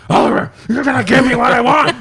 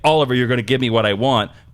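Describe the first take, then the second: First: It is said in a low growling voice. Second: It is said in a normal speaking voice. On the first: The speaker calls it wrong. "There was an exorbitant amount of growling" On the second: The speaker calls it right. "normal lines that should be like"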